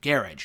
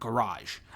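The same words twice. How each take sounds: First: The word has a British-style pronunciation. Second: The word has an American-style pronunciation. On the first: The speaker calls it right. "my grandmother, who is British, pronounces it that way too" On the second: The speaker calls it wrong. "I guess that's like an American way of saying garage"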